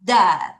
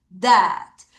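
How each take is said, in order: First: Said in the usual way. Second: Dead drawn out slowly; slow repeat. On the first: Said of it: "발음해봐요". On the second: Shown as a demonstration. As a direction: say dead again, slower. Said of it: "다시 dead". (다시 dead를 천천히 길게)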